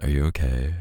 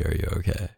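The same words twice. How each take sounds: First: Said in the usual way. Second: Softer, sincere repeat; really mean the question this time; quietly asking a drunk girlfriend if she is really okay; serious. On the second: Acted. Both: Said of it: "No, like, seriously".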